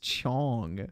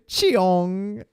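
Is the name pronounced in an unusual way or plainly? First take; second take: plainly; unusual. First: The name is pronounced plainly as Chong. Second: The name is pronounced in an unusual, marked way. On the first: The speaker calls it right. "it's just Chong" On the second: The speaker calls it wrong. "he goes Cheong"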